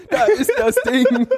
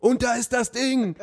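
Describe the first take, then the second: First: High, loud goal scream with laughter; screaming goal commentary. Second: High, excited commentator call; goal commentary. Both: Pretend. Commentator moment at the toilet.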